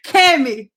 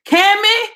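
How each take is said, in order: First: Scolding. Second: Calling out. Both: Real, not acted. Calling out a viewer in chat.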